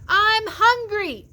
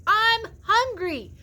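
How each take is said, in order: No difference in how they are said.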